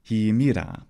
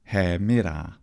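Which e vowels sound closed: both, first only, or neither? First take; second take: both; neither. First: Both e vowels are pronounced closed. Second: Neither e vowel is pronounced closed. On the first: This is the most popular innovative pronunciation. "both of those e vowels were actually e vowels" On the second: This is the most conservative speakers' pronunciation. "In the conservative pronunciation of classical Attic"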